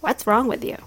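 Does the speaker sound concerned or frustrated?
frustrated. It sounds frustrated and annoyed.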